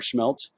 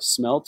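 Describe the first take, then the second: First: The word begins with a sh sound. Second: The word begins with a plain s sound. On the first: "whichever way you want to pronounce it" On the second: "whichever way you want to pronounce it"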